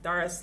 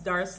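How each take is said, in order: The two takes are said the same way.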